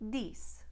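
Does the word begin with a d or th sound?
d. It begins with a d sound. "becomes D"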